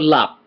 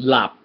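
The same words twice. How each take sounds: First: The word is said without a low tone. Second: The word is said with a low tone. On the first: It means secret. "so then that's lap right" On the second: It means to fall asleep. "there's also lap low tone"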